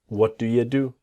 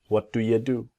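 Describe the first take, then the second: No difference in how they are said.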